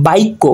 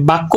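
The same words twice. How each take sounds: First: বাক্য as baikko, i before kk; inserted short i. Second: Said in the usual way. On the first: Shown as a demonstration. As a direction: glide a-i in বাক্য. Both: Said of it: "মাঝখানে রস্বইকার চলে এসেছে".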